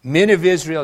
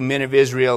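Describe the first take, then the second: First: "Men of Israel" louder, pressed home; emphatic repeat. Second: Said in the usual way. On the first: Shown as a demonstration. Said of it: "do you get that?". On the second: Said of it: "Men of Israel, do you get that?".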